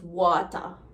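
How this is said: The ending sounds like 'a'.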